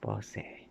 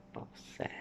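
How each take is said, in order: First: Bossi with a soft ending ee, said quietly; Italian Bossi. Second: Whispered Bosse, ending in eh; French Bosse. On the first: Asked how to say it, quiet Italian Bossi. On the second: Asked how to say it, whispered French Bosse. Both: Shown as a demonstration. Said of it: "How would you say it?".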